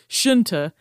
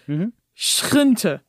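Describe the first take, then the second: First: The word has an Americanized pronunciation. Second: The word has a Dutch-like pronunciation. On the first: "I'm going to say it more Americanized now" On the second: "Here's the Dutch word"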